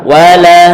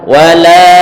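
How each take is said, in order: The two takes are said the same way.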